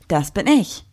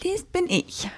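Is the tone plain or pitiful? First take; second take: plain; pitiful. First: It is said in a plain, normal tone. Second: It is said in a whiny, pitiful tone.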